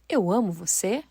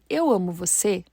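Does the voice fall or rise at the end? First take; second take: rise; fall. First: It is a question with a rising end. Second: It is a tender statement with a falling end.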